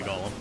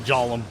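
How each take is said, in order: First: The word starts with a hard G sound. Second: The word starts with a soft G sound. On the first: The speaker calls it wrong. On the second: The speaker calls it right.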